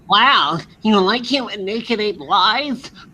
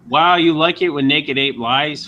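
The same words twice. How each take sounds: First: It is read in a put-on character voice. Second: It is read in his normal voice.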